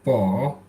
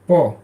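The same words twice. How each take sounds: First: The syllable has a low dipping pitch. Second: The syllable has a sharply falling pitch.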